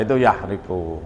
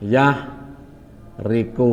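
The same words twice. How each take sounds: First: Said in the usual way. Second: Yahriku drawn out very slowly, each syllable separate; teacher spelling out yahriku slowly. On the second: Shown as a demonstration. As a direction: stretch out yahriku slowly for the class. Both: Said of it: "pelan-pelan ya".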